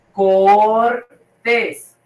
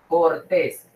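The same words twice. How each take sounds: First: "Cortés" split into a long cor, then tés; "Cortés" said slowly in two parts; syllable by syllable. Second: Said in the usual way. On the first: Shown as a demonstration. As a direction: stretch and separate both syllables of "Cortés".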